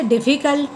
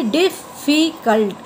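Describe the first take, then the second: First: Said in the usual way. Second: difficult slowly split into three separate sounds; syllable by syllable. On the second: Shown as a demonstration. Teacher showing three sounds to students, difficult slowly said in three parts. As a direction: break difficult into three beats with small gaps. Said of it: "इसमें भी three sound".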